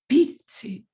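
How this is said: The stress falls on the first word. "five is just the reverse"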